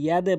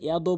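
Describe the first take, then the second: First: The final d ends with a short 'e' echo. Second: The final d ends with a short 'o' echo. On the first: The speaker calls it right. "অবশ্যই ইয়াদে বলবেন" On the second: The speaker calls it wrong. "ইয়াদো বলবেন না"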